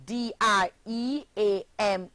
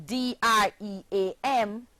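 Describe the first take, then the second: No difference in how they are said.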